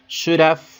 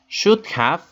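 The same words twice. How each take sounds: First: The word 'have' is reduced to 'of'. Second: The word 'have' is said in full.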